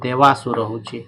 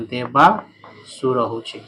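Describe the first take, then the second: First: Said in the usual way. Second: Very slow, stretched ଦେବାସୁର ହଉଛେ, each syllable drawn out; ଦେବାସୁର said very slowly, syllable by syllable; slow teaching repeat. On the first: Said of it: "teacher repeats the word". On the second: Shown as a demonstration. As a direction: spell ଦେବାସୁର out slowly for the class. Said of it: "teacher repeats the word slowly".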